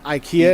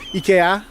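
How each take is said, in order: First: It is said with the American pronunciation. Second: It is said with the Swedish pronunciation. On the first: This is how it is said in the U S. "IKEA in the U S" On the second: This is how it is said locally. "don't call IKEA IKEA"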